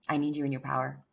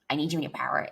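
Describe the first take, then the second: First: It is said in a warm, sincere tone. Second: It is said in a condescending, superior tone. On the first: The speaker is offering loving support. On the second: The speaker is talking down to the listener.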